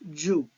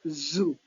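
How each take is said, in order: First: The word starts with a j sound. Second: The word starts with a buzzing z sound. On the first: The speaker calls it wrong. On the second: The speaker calls it right. "It should be voiced zoo"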